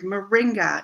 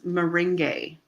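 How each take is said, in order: First: The word ends in a clear 'ah' vowel. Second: The word sounds like 'meringue', with the A changed. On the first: The speaker calls it right. "It's an easy word, moringa. It is exactly as it's spelled" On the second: The speaker calls it wrong. "this person says meringue"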